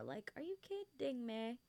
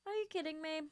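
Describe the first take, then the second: First: Said in the usual way. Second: Higher, incredulous; can't believe it; excited disbelief. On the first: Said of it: "repeats it". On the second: Real, not acted. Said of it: "repeats it higher".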